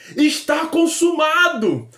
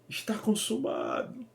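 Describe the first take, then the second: First: It is shouted in a triumphant, victorious tone. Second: It is said in a defeated, resigned tone.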